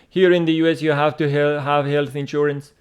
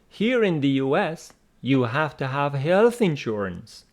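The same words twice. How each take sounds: First: It runs on with no pause after "U S". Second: There is a clear pause after "U S". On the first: The speaker calls it wrong. "don't read it like this" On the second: The speaker calls it right. "Please observe that comma"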